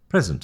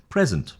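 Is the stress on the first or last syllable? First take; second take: first; first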